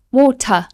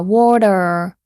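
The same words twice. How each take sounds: First: WATER with no R at the end; crisp T in water, drop the R; British pronunciation. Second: WATER ending in a definite R; American R sound. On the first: Teacher showing how Britons say WATER, R dropped. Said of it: "a British person would say". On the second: Teacher letting students hear the R in WATER. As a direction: say water American style, R fully pronounced. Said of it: "Definite R sound". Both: Shown as a demonstration.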